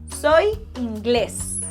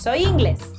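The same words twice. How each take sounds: First: The stress is on the last syllable. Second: The stress is on the first syllable. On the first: The speaker calls it right. "that little accent mark indicates that that vowel has to be stressed" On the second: The speaker calls it wrong.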